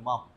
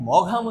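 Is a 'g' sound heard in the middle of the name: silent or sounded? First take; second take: silent; sounded. First: No 'g' sound is heard in the middle. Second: A 'g' sound is heard in the middle. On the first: The speaker calls it right. "কিন্তু মম উচ্চারণ হবে" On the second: The speaker calls it wrong. "এটা কিন্তু মঘাম উচ্চারণ হবে না"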